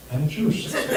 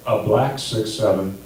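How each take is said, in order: First: Higher, softer punchline. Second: Said in the usual way. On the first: Shown as a demonstration. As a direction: drop to a higher, hushed tag line. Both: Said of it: "there's a difference between".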